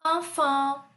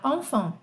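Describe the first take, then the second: First: Enfant com vogais nasais abertas, an; enfant demonstrado. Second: Enfant com an nasal, um pouco mais fechado; enfant correto. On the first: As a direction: diga enfant devagar, nasal an. (pronúncia de enfant) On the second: (enfant dito do jeito certo) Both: Shown as a demonstration. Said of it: "Eu vou falar como fala certo".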